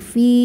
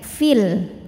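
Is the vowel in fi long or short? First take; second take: long; short. First: The vowel is held long, about two beats. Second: The vowel is short and runs into 'l'. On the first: The reading stops at this word. "fi ini panjangin dua harokat kalau berhenti" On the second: The word is joined to the next word. "Fi-nya pendek"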